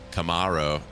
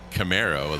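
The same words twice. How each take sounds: First: It is said in an Australian accent. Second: It is said in an American accent.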